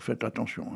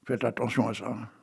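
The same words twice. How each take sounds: First: Said in the usual way. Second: Hushed whisper, like a secret; mock-confidential whisper; whispered warning. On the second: Warning aside after his tale.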